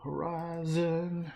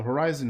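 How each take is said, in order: First: "Horizon." stretched slowly in a higher cowboy drawl; a lightly done cowboy accent, higher and slow. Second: Said in the usual way. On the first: Shown as a demonstration. Repeats the word in the cowboy accent.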